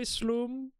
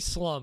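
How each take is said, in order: First: The vowel is a long 'oo' sound. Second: The vowel is a short 'uh' sound. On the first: "the way I think the Swedish would pronounce it" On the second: "You can say slum if you want"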